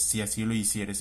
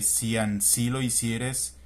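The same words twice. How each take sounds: First: The word is said without an n, así. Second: The word is said with an n, ansí. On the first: This is the modern form. The speaker calls it right. "se es si así lo hicieres" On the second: This is the old form in the text. The speaker calls it wrong. "cuando dice porque si así lo hicieres"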